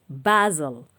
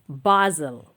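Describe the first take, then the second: No difference in how they are said.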